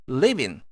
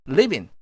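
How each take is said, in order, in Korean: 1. 두 단어를 붙여서 하나로 발음해요. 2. 두 단어를 붙여서 하나로 발음해요.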